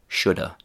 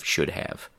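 First: The phrase is squeezed into reduced shoulda. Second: The phrase is said in its full form. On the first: "chewing gum pronunciations" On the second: "instead of"

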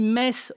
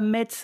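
First: The word ends without a T sound. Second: The word ends with a T sound. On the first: The speaker calls it right. "on dit Metz, le T ne se prononce pas" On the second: The speaker calls it wrong. "on ne dit pas Metz"

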